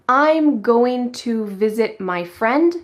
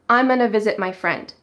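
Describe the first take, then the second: First: The words 'going to' are said in full. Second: The words 'going to' are reduced to 'gonna'. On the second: "becomes I'm gonna visit my friend"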